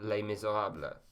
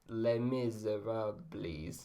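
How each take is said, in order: First: It is said with a French accent. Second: It is said with an English accent. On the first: The speaker calls it right. "say it in a French accent" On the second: The speaker calls it wrong. "horrible English accent"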